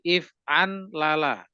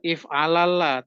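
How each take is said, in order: First: It is said with a clear n sound inside. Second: It is said without an n sound inside. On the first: The speaker calls it right. "tapi if an lala" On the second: The speaker calls it wrong. "Bukan if alala"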